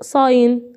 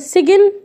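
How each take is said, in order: First: The g is silent, with no g sound. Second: The g is pronounced before the n. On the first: The speaker calls it right. "صاين علامه او رمز" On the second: The speaker calls it wrong. "سجن لا"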